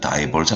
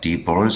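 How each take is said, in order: First: The first syllable has a long 'dye' vowel. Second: The first syllable has a short 'dih' vowel. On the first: "아니면" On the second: "발음은 두 가지예요"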